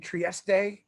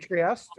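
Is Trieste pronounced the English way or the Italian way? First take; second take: Italian; English. First: The name is pronounced the Italian way. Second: The name is pronounced the English way. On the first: This is how the other person says it. "as to you say Trieste" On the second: This is how the speaker normally says it. "I would normally say Trieste"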